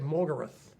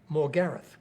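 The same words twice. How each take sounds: First: The stress is on the first syllable. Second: The stress is on the middle syllable. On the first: This is the American way of saying it. "Americans tend to emphasise the first syllable. So they will say Morgareth" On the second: This is the Australian way of saying it. "We'll use Morgareth. We tend to emphasise in a three-syllable word the middle syllable"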